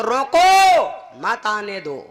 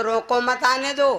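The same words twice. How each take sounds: First: रोको loud and rising, then a break; pause after रोको. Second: Said in the usual way. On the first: Shown as a demonstration. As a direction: hit रोको hard, pause, then मत आने दो. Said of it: "तो क्या कह दो". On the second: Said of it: "पहले कह दो".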